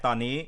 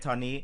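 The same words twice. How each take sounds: The two takes are said the same way.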